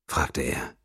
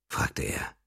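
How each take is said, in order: First: Said in the usual way. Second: Soft, breathy narrator whisper. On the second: A narrator's reading. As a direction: breathe the words out, no voice. (geflüsterte Erzählstimme)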